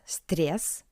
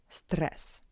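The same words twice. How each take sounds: First: The r before the vowel is soft. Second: The r before the vowel is hard. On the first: The speaker calls it wrong. "not stress" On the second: The speaker calls it right. "that's why r is hard"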